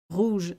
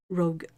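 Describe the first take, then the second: First: Rouge said the French way, uvular r and long oo. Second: Said in the usual way. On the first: Shown as a demonstration. Explaining a French mix-up to a friend, rouge in French. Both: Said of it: "rouge instead of rogue".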